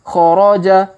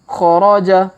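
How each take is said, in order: Both takes have the same delivery.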